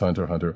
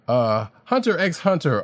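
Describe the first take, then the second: First: Nothing is spoken between the two words. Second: The letter x is spoken between the words. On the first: The speaker calls it right. "I know it's Hunter Hunter" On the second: The speaker calls it wrong. "And yes, I say it like that"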